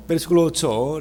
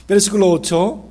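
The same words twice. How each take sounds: First: Said in the usual way. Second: "Versículo ocho" called out louder and higher; louder announcement. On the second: Shown as a demonstration. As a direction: call "versículo ocho" out to the room.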